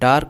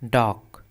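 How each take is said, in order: First: The word is said with an R sound. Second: The word is said without an R sound. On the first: The speaker calls it wrong. "इसे डार्क नहीं पढ़ते हैं" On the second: The speaker calls it right. "इसमें आर silent होता है"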